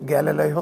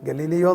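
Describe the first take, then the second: First: The second syllable has a short 'a' vowel. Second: The second syllable has a long 'ee' vowel. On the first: The speaker calls it right. "അതുകൊണ്ടാണ് ഗാലലയോ എന്ന് ഞാൻ പറയുന്നത്" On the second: The speaker calls it wrong. "ഗലീലിയോ എന്നല്ല അതിൻ്റെ ഉച്ചാരണം"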